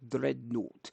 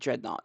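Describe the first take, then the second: First: The R is rolled and the vowels are muffled. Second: The R is plain and the vowels are clear. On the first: The speaker calls it right. "You have to roll the R and you have to hide the uh, the vowel sounds" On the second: The speaker calls it wrong. "It's not dreadnought"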